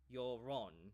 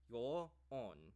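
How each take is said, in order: First: An r sound links the words into one. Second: The words are separate, with no linking r. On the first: "connected, if you say it like quickly with each other"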